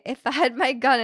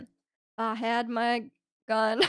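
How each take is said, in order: First: Said in the usual way. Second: Slow, drawn-out Texan accent. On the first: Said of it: "You gotta say". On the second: Shown as a demonstration. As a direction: drawl it like a Texan cowboy. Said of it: "in a Texan accent".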